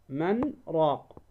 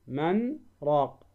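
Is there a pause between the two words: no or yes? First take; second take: yes; yes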